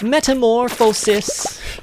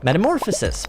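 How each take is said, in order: First: It is said imitating the Bug's Life character. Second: It is said in his own normal voice.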